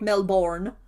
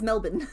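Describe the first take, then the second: First: The last syllable sounds like 'born'. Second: The last syllable is short and reduced. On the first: The speaker calls it wrong. "It's not like Bloodborne" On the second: The speaker calls it right. "Melbourne is Melbourne"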